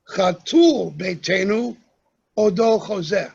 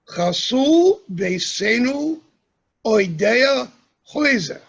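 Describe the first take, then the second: First: Sephardic sounds, stress on the last syllables. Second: Ashkenazic sounds, stress on second-to-last syllables.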